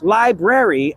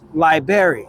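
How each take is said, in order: First: Both R sounds are pronounced. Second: The first R sound is dropped.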